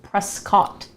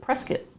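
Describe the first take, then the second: First: The name is said just as it is spelled. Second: The name is said in the local way. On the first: This is how the name is written. "which is spelled Prescott" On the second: This is how people from Phoenix say it. "people here in Phoenix call it, pronounce it Prescott"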